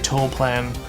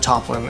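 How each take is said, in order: First: The name begins with a long 'toe' sound. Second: The name begins with a short 'top' sound. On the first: The speaker calls it right. "so I say Toaplan" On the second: The speaker calls it wrong. "instead of Toplin"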